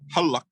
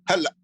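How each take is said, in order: First: It is said with a Q sound. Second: It is said with a Lebanese glottal stop.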